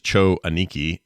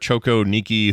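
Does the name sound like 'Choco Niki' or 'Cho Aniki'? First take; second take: Cho Aniki; Choco Niki. First: The name is said as 'Cho' then 'Aniki'. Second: The name is said with a 'co' sound inserted. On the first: The speaker calls it right. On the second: The speaker calls it wrong.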